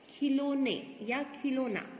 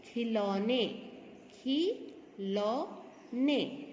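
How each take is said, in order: First: खिलौने, खिलौना with "lo" instead of "lau"; wrong pronunciation. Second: खिलौने syllable by syllable, khi, lau, ne; slow teacher's model of खिलौने with "lau"; correct pronunciation. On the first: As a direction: say खिलौने या खिलौना with plain "o": khi-LO-ne, khi-LO-na. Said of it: "ये गलत है।". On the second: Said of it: "क्या होता है?". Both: Shown as a demonstration.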